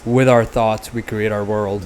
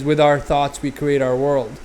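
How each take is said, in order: First: It is said close to the mic, intensely. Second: It is said in a normal speaking voice.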